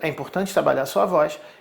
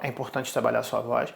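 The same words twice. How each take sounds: First: It is said at a higher pitch. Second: It is said at his normal pitch.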